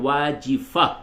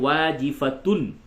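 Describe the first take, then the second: First: The word ends in a plain 'ah' sound. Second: The word ends in a 'tun' sound. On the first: The reader stops at this word. "हालत वक्फ में" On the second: The reader joins it to the next word. "मिला के पढ़ेंगे तो"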